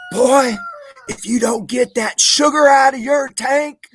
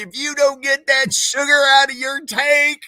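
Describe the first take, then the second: First: High, loud, slow bellow of a mocking sergeant; drill sergeant bellow. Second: High, loud shout of the sergeant's taunt; drill sergeant scream. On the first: Drill sergeant screaming behind a recruit while marching, loud high bellow. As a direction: roar it down the marching line. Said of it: "he said". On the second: Retold or imitated. Retelling the sergeant's insult to the friends, high loud scream. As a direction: yell it like a furious sergeant. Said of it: "Screamed at me".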